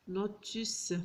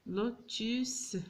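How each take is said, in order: First: Said in the usual way. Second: لوتيس stretched slowly, lo-tis clearly split; slow sounding out. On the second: Shown as a demonstration. Teacher sounding out لوتيس slowly for pupils. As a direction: draw out لوتيس syllable by syllable.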